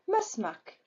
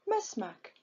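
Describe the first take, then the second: Both takes have the same delivery.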